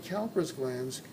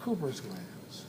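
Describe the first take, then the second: First: The first syllable sounds like 'cow'. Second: The first syllable sounds like 'coo'. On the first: This is the common everyday pronunciation. The speaker calls it wrong. "most people say Cowper's glands" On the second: This is the original pronunciation of the name. The speaker calls it right. "probably the correct pronunciation should be Cooper"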